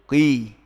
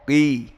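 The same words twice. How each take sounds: The two takes are said the same way.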